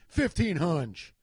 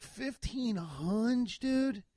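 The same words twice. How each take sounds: First: "Fifteen hunch" drawn out casually; unbothered, stretched-out "Fifteen hunch"; casual price quote. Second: High, very slow incredulous echo; higher, drawn-out disbelieving repeat; retold disbelief. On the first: Retold or imitated. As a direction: slowly announce "Fifteen hunch" as a retold quote. Quoting the price matter-of-factly. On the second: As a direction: stretch it out in mock shock at the price. Stunned echo of the quoted price.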